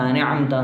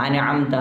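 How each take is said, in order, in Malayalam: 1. തിടുക്കത്തിലാണ്, ശബ്ദങ്ങൾ ഒന്നിച്ചുചേർത്താണ് ഉച്ചരിച്ചിരിക്കുന്നത്. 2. തിടുക്കത്തിലാണ്, ശബ്ദങ്ങൾ ഒന്നിച്ചുചേർത്താണ് ഉച്ചരിച്ചിരിക്കുന്നത്.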